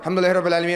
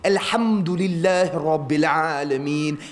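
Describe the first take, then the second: First: It is said quickly, rushed and shallow. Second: It is said slowly, with the whole mouth. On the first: It is recited without feeling. The speaker calls it wrong. "It's not like" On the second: It is recited with the full essence. The speaker calls it right. "It was full"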